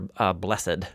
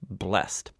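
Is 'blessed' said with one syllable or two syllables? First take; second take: two syllables; one syllable. First: The word is said as two syllables. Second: The word is said as one syllable.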